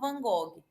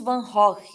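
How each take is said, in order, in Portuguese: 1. O nome é pronunciado do jeito do português brasileiro. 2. O nome é pronunciado do jeito original holandês. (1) "aqui no Brasil a gente chama" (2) "a pronúncia correta, né, seria"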